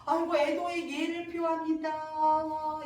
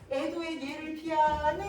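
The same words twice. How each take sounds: First: Slow wailing chant on held notes; teasing mock condolence. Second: Slow singsong jeer, rising at the end; taunting. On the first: So Unseong offering sham condolences to Songgi, teasing. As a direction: intone fake mourning, stretching every ending. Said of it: "이러면서 약 올리는 거야". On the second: Shown as a demonstration. Teacher showing how So Unseong taunts Songgi, taunting singsong. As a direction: tease with a long stretched final syllable. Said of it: "어, 약 올리는 느낌이야".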